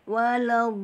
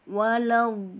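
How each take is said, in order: Both takes have the same delivery.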